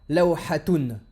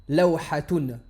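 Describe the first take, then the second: The two takes are said the same way.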